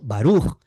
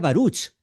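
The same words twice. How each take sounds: First: The word ends in a throaty h sound. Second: The word ends in a ch sound. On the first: The speaker calls it right. "digamos Baruch con J de Jaén" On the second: The speaker calls it wrong. "yo leería Baruch"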